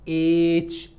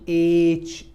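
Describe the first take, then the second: No difference in how they are said.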